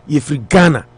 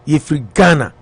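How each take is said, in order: Both takes have the same delivery.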